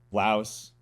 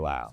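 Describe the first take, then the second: First: The word ends with an S sound. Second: The word ends without an S sound. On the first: This is the English way of saying it. "in English you can say Laos" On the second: This is how locals say it. "over there they say Lao"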